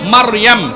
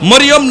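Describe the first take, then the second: First: The name is said as Maryam, with a vowels. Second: The name is said as Moriyom, with o vowels. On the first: The speaker calls it right. "শুদ্ধভাবে বলেন" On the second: The speaker calls it wrong. "মরিয়ম না"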